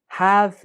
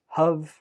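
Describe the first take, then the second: First: The word has a full, strong vowel. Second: The word has a weak uh vowel.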